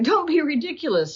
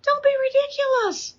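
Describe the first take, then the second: First: Don't be ridiculous pitched higher, dismissive; scoffing king. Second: High, scornful Don't be ridiculous; mock the boy in a high sneer; scoffing king. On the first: Retold or imitated. King Saul brushing off David, mildly scornful. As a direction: wave the boy off with a sneer. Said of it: "Saul said". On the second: King Saul dismissing young David, high and scornful. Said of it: "so Saul says this, he goes".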